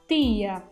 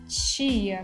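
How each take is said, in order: First: The first consonant is a plain t. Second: The first consonant sounds like ch. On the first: "a gente vai pronunciar como gaúcho" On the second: "a gente pronuncia tia como tia"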